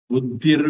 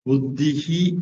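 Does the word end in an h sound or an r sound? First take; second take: r sound; h sound. First: The word ends in an r sound. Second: The word ends in a breathy h sound. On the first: "இர்ரா மாறும்" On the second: "புத்திஹி விசர்க்கம்"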